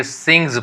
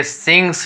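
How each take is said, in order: First: सिंग्स with a buzzed z at the end; voiced Z ending. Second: सिंग्स with a hissed s at the end; wrong S ending. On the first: Teacher corrects the reading, सिंग्स with final z. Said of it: "सिंग्स पढ़ा जाएगा". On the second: Teacher shows the reading to avoid, सिंग्स with final s. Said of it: "सिंग्स नहीं पढ़ेंगे". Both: Shown as a demonstration.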